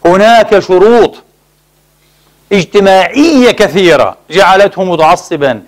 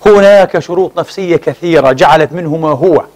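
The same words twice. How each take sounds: First: هناك شروط drawn out slowly, each word weighted; slow down and lean on هناك; slow emphatic repeat. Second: Said in the usual way. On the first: Real, not acted. (تكرار بطيء مؤكد على كلمة هناك)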